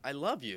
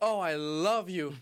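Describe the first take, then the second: First: It is said in a quiet, sincere way. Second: It is said in an overdramatic, theatrical way.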